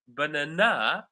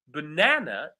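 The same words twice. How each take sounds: First: The stress is on the third syllable. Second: The stress is on the second syllable. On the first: "third syllable" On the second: "the correct pronunciation is banana. So the stress falls on the second syllable"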